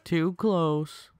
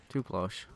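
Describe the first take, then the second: First: High, put-on silly voice. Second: Softly, half under the breath; a quiet sigh of relief after a close call. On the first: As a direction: repeat it in a goofy high voice. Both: Shown as a demonstration. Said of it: "repeated in a voice".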